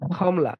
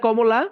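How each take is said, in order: First: The word begins with a breathy kh sound. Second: The word begins with a plain k sound. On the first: This is how people from Sylhet say it. "ওরা কমলারে বলে খমলা" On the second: This is how people in Dhaka say it. "ঢাকায় বলে কমলা।"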